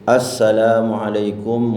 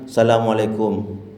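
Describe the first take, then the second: First: The greeting starts with the article sound 'as-'. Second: The greeting starts directly with 'sa-', without 'as-'. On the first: The speaker calls it right. "pakai alif sin, ya, alif lam sin" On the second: The speaker calls it wrong. "Jangan ... enggak sah nih"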